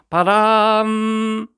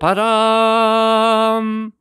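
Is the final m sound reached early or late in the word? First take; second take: early; late. First: The lips close on the final m early. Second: The vowel is held; lips close only at the end. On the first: The speaker calls it wrong. "바람 아니고" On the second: The speaker calls it right. "끝에 가서 살짝 다물어 주면은"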